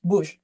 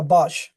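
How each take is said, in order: First: "Bush" with a short rounded "oo" vowel; corrected pronunciation. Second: "bush" with an open "ah" vowel, like "bahsh"; unsure pronunciation. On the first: Speaker echoing a listener's correction, "Bush" said with short "oo". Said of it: "How do you pronounce?". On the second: Speaker reading out a comment about a tree, "bush" mispronounced as "bahsh". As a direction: say "bush" to rhyme roughly with "gosh". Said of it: "always having trouble pronouncing". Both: Real, not acted.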